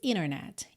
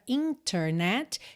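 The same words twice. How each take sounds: First: The T after the N is dropped. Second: The T after the N is pronounced.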